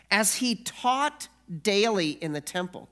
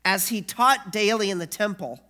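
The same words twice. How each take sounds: First: Said in the usual way. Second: "As he taught daily in the temple" said louder and fuller; weightier reread. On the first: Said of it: "reads the verse first". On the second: Shown as a demonstration. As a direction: pastor rereading the verse to the congregation, louder. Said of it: "rereads the verse with weight".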